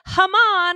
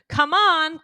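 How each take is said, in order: First: The first word begins with an h sound. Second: The first word begins with a k sound. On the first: This is how a small child said it. "she would make it a h" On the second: This is the usual adult form. "instead of saying come on"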